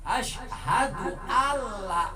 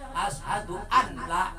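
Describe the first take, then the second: First: The n merges into a doubled l sound. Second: The n sound is pronounced before the l. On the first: The speaker calls it right. "ashhadu alla itu namanya idgham bilagul" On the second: The speaker calls it wrong. "jangan ini membayangkan ashhadu anla"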